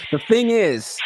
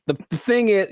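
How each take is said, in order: First: Deliberate, higher-pitched restart without stumbling; a redone, fluent lead-in; cleaner retake. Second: Stumbling on the opening words; a stuttered, unpractised lead-in; fumbled first try. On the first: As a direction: deliver "The thing is" cleanly, pitched up. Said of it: "I should have practiced". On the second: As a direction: trip over "the" before "thing is". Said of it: "I could have done better". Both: Shown as a demonstration.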